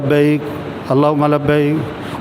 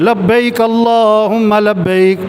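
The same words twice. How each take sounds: First: It is said softly and limply. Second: It is said loudly and with energy. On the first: The reciter lacks real feeling. The speaker calls it wrong. "बड़ा ढीला ढीला पढ़ रहा है" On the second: It is meant to stir others to join in. The speaker calls it right. "फिर खुद पढ़ा ज़ोर से"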